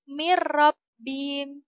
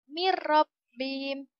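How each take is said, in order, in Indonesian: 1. Bunyi n melebur menjadi r ganda, tanpa sengau. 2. Bunyi n melebur menjadi r ganda, tanpa sengau.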